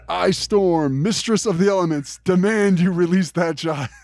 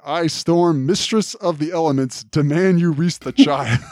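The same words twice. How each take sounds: First: Higher, slow hammed-up heroic announcement; grand Storm proclamation. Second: Lightly voiced proclamation, a touch high; a mild mock heroic announcement as Storm; Storm announcing. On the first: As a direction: ham it up, declaring like a goddess. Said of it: "Say that again". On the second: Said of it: "announces that".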